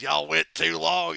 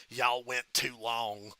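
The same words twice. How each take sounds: First: Slow and louder drawl; Michael Hayes impression. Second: Slow, tired drawl with a sigh before it; Michael Hayes impression. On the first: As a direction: lean into it, drawn out and louder. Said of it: "fucking Michael Hayes". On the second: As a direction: drag it out like a weary boss. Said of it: "Michael Hayes goes".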